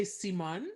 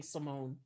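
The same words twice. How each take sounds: First: "Simone" the French way, see-MUN; French pronunciation. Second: Said in the usual way. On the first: Shown as a demonstration. Guest explaining her own name, "Simone" said the French way. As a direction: say "Simone" with "ee" and a short open second vowel. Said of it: "like the, the French way". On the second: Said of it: "I'm so used to saying Simone".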